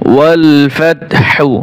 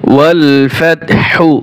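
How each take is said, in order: Both takes have the same delivery.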